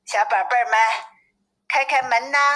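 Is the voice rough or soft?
rough. It is said in a rough, coarse wolf voice.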